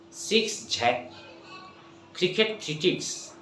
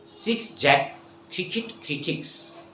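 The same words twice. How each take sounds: The two takes are said the same way.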